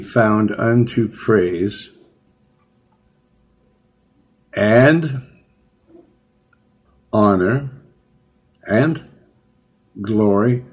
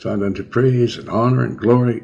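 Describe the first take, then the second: First: The phrase is read slowly and deliberately. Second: The phrase is read quickly and rushed. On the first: Every word is meant to be taken in. The speaker calls it right. "I like to read it slow" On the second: The words pass by without being noticed. The speaker calls it wrong. "you're supposed to read that fast"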